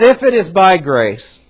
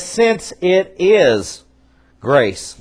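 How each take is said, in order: First: Said in the usual way. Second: Since drawn out very slowly, then a pause before grace; slow, weighty reading. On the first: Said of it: "not if it's by grace". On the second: Shown as a demonstration. Preacher correcting the text, stretching Since it is slowly. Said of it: "Literally, it says".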